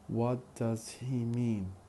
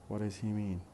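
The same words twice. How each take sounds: First: Each word is said fully and carefully. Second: It is run together with a weak 'does'. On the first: "First in careful speech" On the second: "then in fast speech"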